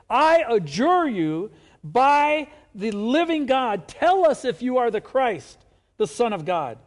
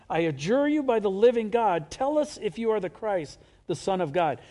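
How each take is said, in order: First: It is said dramatically, with a forceful voice. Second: It is read in a plain, calm voice.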